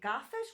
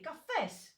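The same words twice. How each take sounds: First: The stress is on the first syllable. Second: The stress is on the last syllable. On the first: The speaker calls it wrong. "We don't say cafés" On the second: The speaker calls it right. "we say cafés"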